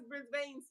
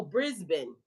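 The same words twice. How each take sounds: First: Brisbane with the second syllable rhyming with "rain"; mispronounced Brisbane. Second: Brisbane with a short, reduced second syllable, "BRIZ-bin"; corrected Brisbane pronunciation. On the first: Asking Miss Kelly how to say it, Brisbane mispronounced as "Briz-bayn". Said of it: "How, how I'm supposed to say it?". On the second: Learner trying out the taught word, Brisbane said as "Briz-bin". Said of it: "Is that how you say it?". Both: Real, not acted.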